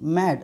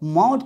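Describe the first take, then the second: First: The vowel is an open 'ae' sound. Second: The vowel is a rounded 'aw' sound. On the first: The speaker calls it right. "यहाँ पे मैड बोल सकते हैं" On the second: The speaker calls it wrong. "यहाँ पे मॉड तो नहीं बोलें"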